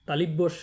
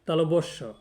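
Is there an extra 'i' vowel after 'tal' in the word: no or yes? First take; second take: yes; no. First: The word has an extra i after tal. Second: The word is said with no i after tal. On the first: The speaker calls it wrong. "তালিবস্য বলা যাবে না" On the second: The speaker calls it right. "এখানে তালবস্য বলতে হবে"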